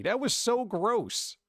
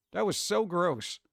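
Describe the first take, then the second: First: Slow, stretched, disgusted; drawn-out disgust. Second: Said in the usual way. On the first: Shown as a demonstration. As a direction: stretch it out, really grossed out.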